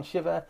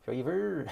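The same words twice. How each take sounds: First: Said in the usual way. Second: SHIVA slipping into an odd accent, said like "Shay-vuh"; stray accent on SHIVA, first syllable rhyming with "shave", pitched higher; accidental odd accent. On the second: Real, not acted. Streamer trying out a viewer's name, slipping into an odd accent. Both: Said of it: "I don't know where that accent came from".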